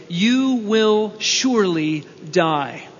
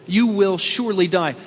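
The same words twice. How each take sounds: First: "you will surely die" drawn out slowly, each word weighed; slow and solemn. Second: Said in the usual way. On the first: Shown as a demonstration. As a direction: lay the verdict down slowly and gravely. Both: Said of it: "The Hebrew is".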